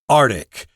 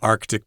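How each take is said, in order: First: The first c sound is dropped. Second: The first c sound is clearly pronounced. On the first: "most people just say Arctic, and that might be easier for you to say" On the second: "I say Arctic because, you know, I've you know, English teacher"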